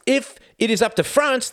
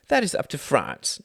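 First: Louder, much higher challenge; a diplomat pressing his point louder; pressing harder. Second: Said in the usual way. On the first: Acted. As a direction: press the point home hard.

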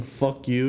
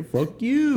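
First: Said in the usual way. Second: High-pitched, harmless little cuss; unthreatening mock yell. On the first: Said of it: "the most unthreatening". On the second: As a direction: imitate a feeble threat way up high. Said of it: "the most unthreatening "fuck you" you'll ever hear".

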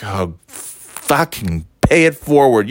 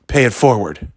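First: Slow, drawn-out sarcastic repeat; scornful echo. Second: Lightly voiced cashier, even pitch; matter-of-fact parting instruction, understated; cashier's instruction. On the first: Retold or imitated. Throwing cashier's instruction back, slow scornful echo. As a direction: stretch the swear in disgust. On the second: Cashier handing down advice, lightly voiced instruction. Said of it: "And he's like".

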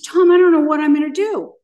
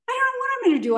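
First: Loud, desperate cry to a friend; half-shouting in panic; recalling her panicked loud plea to Tom; hysterical plea. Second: Much higher, wailing repeat at normal volume; pleading higher the second time to Tom; hysterical repeat. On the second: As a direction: voice flies up in retold panic. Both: Retold or imitated. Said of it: "I was completely hysterical and lost".

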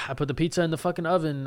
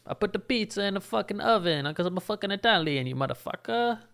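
First: Said in the usual way. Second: Put-on overdone Italian accent, a lot higher; bad Italian accent. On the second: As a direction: ham up a cheesy Italian pizza-guy voice. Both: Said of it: "It's the worst accent I've ever done".

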